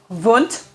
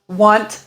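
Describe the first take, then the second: First: The name is pronounced the German way. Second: The name is pronounced the English way. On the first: The speaker calls it right. "my best understanding of German pronunciation uh, is that it would be Wundt" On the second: The speaker calls it wrong. "Students often want to say Wundt"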